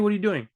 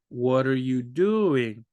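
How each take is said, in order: First: It is spoken quickly and casually. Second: It is spoken slowly and clearly. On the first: Learners cannot follow it. "But if you say, hey" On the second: Learners can follow it. "If you talk to them like that, they can understand"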